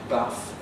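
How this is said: It has a short, flat northern vowel.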